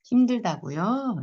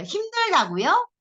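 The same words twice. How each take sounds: First: Slow, drawn-out repeat question; stretched, understanding question; empathetic echo. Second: Loud, high, drawn-out mocking question; scornful repeat, pitched way up; sarcastic echo. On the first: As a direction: echo it slowly with sympathy. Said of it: "이렇게". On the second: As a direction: stretch it out with sarcasm. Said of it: "이 비꼬는 투로 말하면". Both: Shown as a demonstration.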